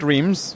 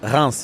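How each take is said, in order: First: The name is said with an English pronunciation. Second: The name is said with a French pronunciation. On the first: The speaker calls it wrong. "not Reims" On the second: The speaker calls it right. "It's Reims"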